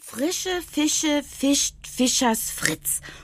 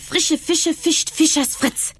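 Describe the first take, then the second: First: It is said at a slower, normal pace. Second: It is said at a faster pace.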